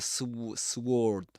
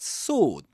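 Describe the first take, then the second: First: A w sound follows the s. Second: No w sound follows the s. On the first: The speaker calls it wrong. "and not the sw sword" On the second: The speaker calls it right. "but sword"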